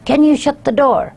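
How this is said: It is shouted as an angry command.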